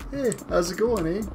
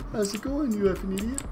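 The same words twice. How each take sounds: First: Light, friendly "Hey, how's it going, eh?"; sweet as pie, Canadian style; polite Canadian greeting. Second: Higher, softer, sugary "you effing idiot"; mock rude Canadian greeting. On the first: Retold or imitated. Streamer imitating a polite Canadian greeting, light and friendly. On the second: Streamer jokingly showing what "eh" really means, sugary and high. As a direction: insult wrapped in a polite tone. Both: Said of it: "everybody thought Canadians were so polite".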